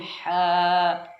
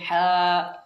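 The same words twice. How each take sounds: First: The syllable fades out with no glottal catch. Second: The syllable ends with a sharp glottal catch. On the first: The speaker calls it right. "Langsung hilang suaranya" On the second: The speaker calls it wrong. "Saya tadi agak uh, kehabisan nafas"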